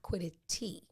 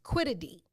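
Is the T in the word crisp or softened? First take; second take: crisp; softened. First: The T is said as a crisp T. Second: The T is softened, not a crisp T. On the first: The speaker calls it wrong. "like not quiddity" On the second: The speaker calls it right. "the T in it doesn't sound like a T"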